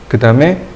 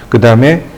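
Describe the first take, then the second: Both takes have the same delivery.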